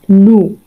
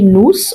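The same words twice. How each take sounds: First: The final s sound is silent. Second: The final s sound is pronounced. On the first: The speaker calls it right. "we are going to say nous" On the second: The speaker calls it wrong. "we are not going to say nous"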